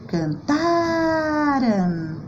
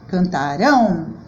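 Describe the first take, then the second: First: The stress is on the second-to-last syllable. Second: The stress is on the final syllable. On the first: It happened in the past. "No passado também, paroxítona" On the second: It will happen in the future. "Já no futuro, são as oxítonas que destacam"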